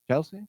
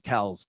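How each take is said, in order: First: The name ends with an added 'ee' vowel. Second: The name ends with a 'z' sound. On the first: The speaker calls it wrong. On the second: The speaker calls it right.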